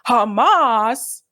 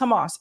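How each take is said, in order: First: The word is said with heavy, exaggerated force. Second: The word is said plainly, without extra force. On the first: "putting emphasis on it" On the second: "It's not just Hamas"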